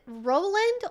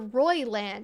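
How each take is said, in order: First: The first syllable has a plain 'oh' vowel. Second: The first syllable has an 'oy' vowel. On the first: "you don't pronounce the I" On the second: "it looks like it's Royland with an I"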